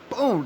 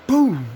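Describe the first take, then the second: First: Said in the usual way. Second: High, loud yelled boom; shouted gunshot boom. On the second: Retold or imitated. Telling friends about a bullet hit, loud shouted boom. Imitating bullet hitting him.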